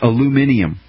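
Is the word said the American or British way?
British. It has five syllables, ending in -ium. The speaker calls it wrong. "for our British listeners"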